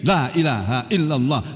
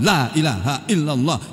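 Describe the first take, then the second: First: The words are rushed and slurred together. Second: The words are rushed and slurred together.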